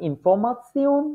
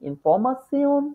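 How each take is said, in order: Both takes have the same delivery.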